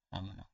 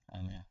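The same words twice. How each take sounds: The two takes are said the same way.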